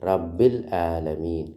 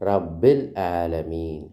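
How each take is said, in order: The two takes are said the same way.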